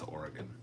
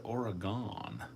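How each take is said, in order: First: Oregon said softly with a short "gun" ending; corrected Oregon. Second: Oregon with a long drawn "gon" ending; wrong Oregon. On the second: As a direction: say Oregon ending in a stretched "gahn". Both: Shown as a demonstration. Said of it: "No, it's Oregon".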